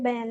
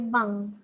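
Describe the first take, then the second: First: The word is said with an English-style pronunciation. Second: The word is said exactly as spelled in Malay. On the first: "Is it bank like Maybank, C I M B Bank, Alliance Bank?" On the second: "bank ini kita sebut sebagai bank"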